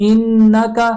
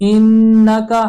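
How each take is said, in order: Both takes have the same delivery.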